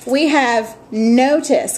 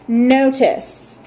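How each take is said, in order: First: Said in the usual way. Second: "Notice" said slowly and clearly, falling at the end; model word for repeating. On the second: Shown as a demonstration. Teacher giving students a word to repeat, slow and clear. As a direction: say "Notice" carefully so the class can copy it. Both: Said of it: "Go ahead and repeat these after me".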